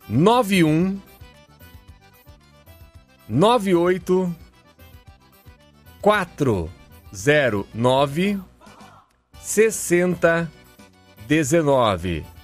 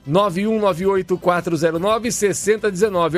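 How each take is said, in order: First: The number is said slowly and carefully. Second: The number is said at normal, quicker speed.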